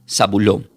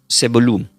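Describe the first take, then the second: First: The name begins with 'Za' and ends in 'lón'. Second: The name begins with 'Ze' and ends in 'lun'. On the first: "se pronuncia Zabulón" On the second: "del hebreo se pronuncia como Zebulun"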